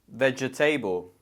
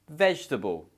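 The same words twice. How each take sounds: First: It is said with four syllables, middle vowel pronounced. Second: It is said with three syllables, middle vowel dropped. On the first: The speaker calls it wrong. "it looks like there's four sounds or four syllables" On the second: The speaker calls it right. "The correct option is A, vegetable"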